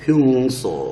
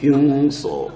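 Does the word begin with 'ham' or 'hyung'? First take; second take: hyung; hyung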